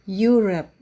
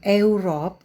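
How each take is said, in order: First: The word begins with a 'you' sound. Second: The word begins without a 'you' sound. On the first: The speaker calls it right. "Huruf E dan U dalam Europe dibaca sebagai U" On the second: The speaker calls it wrong.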